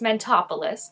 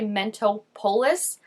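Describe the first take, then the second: First: It is said with the rhythm of Metropolis. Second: It is said unlike the word Metropolis. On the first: The speaker calls it right. "It's Mentopolis, like Metropolis" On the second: The speaker calls it wrong. "I want to say Mentopolis, which is not correct"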